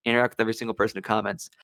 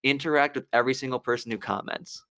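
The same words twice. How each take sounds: First: Rattled off fast as a mantra; fast repeat. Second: Said in the usual way. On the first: Shown as a demonstration. Repeating the number one viral rule, rapidly. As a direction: fire the rule off quickly a second time. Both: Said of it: "they say the number one thing is".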